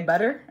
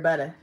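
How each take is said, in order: First: The word ends with an 'er' sound. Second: The word ends with an 'ah' sound.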